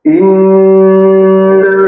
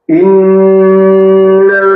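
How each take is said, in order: First: The nasal sound is held for a long time. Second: The same.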